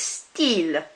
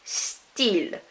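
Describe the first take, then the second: First: It is said with a French pronunciation. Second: The same.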